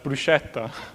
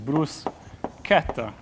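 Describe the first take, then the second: First: The middle consonant is a soft 'sh' sound. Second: The middle consonant is a hard 'k' sound. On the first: The speaker calls it wrong. "you could pronounce this word as bruschetta, which is horrible" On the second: The speaker calls it right. "C H is consistently and systematically K"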